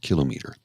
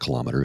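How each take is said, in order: First: The stress falls on the first syllable. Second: The stress falls on the second syllable. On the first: The speaker calls it right. "it's a kilometer. It's a kilo and a meter" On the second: The speaker calls it wrong. "It's not a kilometer"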